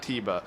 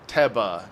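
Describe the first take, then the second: First: The first vowel differs from the one in 'tennis'. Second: The first vowel sounds like the one in 'tennis'. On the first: The speaker calls it wrong. "not Tiba" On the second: The speaker calls it right. "I'm going to call him Teba"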